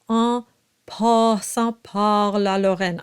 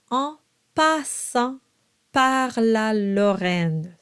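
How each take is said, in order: First: Exaggerated "en passant par la Lorraine", "passant par" like "paw"; dark, backed vowel in "passant par"; dark English ah. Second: Slow "en passant par la Lorraine", bright forward ah in "passant par la". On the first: Coach exaggerates what to avoid, dark ah. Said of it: "ah is a little darker". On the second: Coach corrects the line, very bright ah. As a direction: keep "passant par la" open, never "paw". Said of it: "Very bright". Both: Shown as a demonstration.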